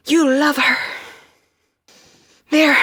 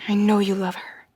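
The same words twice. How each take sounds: First: High, loud insistent cry; urgent shout. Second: Said in the usual way. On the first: Acted. Urging Sam to reach her, loud insistent cry. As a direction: push it out as a desperate plea.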